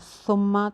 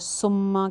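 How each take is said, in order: First: The word begins with a soft th sound. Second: The word begins with a hissing s sound. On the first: The speaker calls it right. "जब हम पढ़ते हैं सुम्मा" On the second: The speaker calls it wrong. "Majority जो है सुम्मा कह रही होती है"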